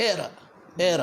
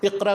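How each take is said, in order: First: ایرا with the q dropped to a glottal catch; demonstrated Egyptian ایرا; Egyptian hamza. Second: Said in the usual way. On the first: Shown as a demonstration. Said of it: "مصری جتنے وہ حمزہ بنا دیتے ہیں". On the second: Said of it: "اقرا کو کہیں گے".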